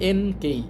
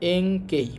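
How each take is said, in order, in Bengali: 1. প্রথম সিলেবলটি সাধারণ n ধ্বনি দিয়ে শেষ হয়। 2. প্রথম সিলেবলটি ng ধ্বনি দিয়ে শেষ হয়। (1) "উচ্চারণ হওয়ার কথা এন কেই, কিন্তু এন কেই হবে না" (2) "ন সাউন্ডের পর যদি ক সাউন্ড ... আসে তখন ন সাউন্ডের উচ্চারণ অং হয়"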